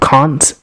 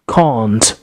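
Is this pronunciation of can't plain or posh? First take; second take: plain; posh. First: It is said with a plain, ordinary-sounding vowel. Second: It is said with a long, posh-sounding vowel.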